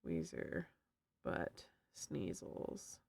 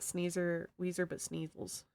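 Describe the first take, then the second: First: Very low, slow, unvoiced whisper. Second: Said in the usual way. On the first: Streamer repeats the pun to chat, low slow whisper. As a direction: breathe the pun out slowly and low. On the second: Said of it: "I need to make a note of that".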